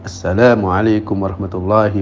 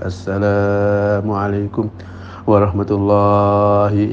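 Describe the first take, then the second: First: The long vowels are held at natural length. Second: The long vowels are stretched out unnaturally long. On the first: The speaker calls it right. "cara alaminya itu ya" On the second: The speaker calls it wrong.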